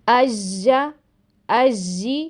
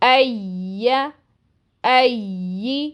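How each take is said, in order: First: The tongue touches the palate, sounding like j. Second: A smooth y glide, tongue not touching the palate. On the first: The speaker calls it wrong. "आपको ऐसी आवाज़ सुनाई देती है ... जो कि गलत है" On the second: The speaker calls it right. "इसकी आवाज़ जारी रहती है और ऐसी सुनाई देती है"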